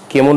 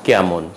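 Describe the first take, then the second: First: কেমন with closed "e"; closed first vowel. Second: কেমন with open "ae"; কেমন with "ae" as in "cat"; open first vowel. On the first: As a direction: say কেমন as "kemon". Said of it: "উচ্চারণ হবে না". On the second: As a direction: say কেমন as "kaemon". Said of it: "উচ্চারণ হবে". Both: Shown as a demonstration.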